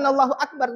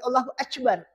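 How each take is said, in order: First: It is said with a standard Arabic k sound. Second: It is said the Turkish way, k becoming c.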